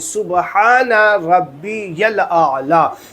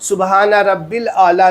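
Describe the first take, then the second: First: The middle word is said as rabbiyal. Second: The middle word is said as rabbil. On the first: The speaker calls it right. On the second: The speaker calls it wrong.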